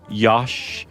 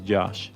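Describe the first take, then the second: First: The name starts with a Y sound. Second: The name starts with a J sound. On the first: "other ways like Yosh" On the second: "the only right way to say it is Josh"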